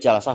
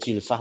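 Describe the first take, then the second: First: The first vowel is an open 'a'. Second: The first vowel is a close 'i'. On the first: "Boleh jalsah" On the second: "boleh jilsah, tak masalah"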